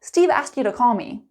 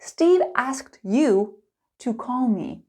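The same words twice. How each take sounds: First: It is spoken fast with 'you' reduced to ya. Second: It is spoken slowly with a full 'you'. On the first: "Fast and natural" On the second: "Slow and clear"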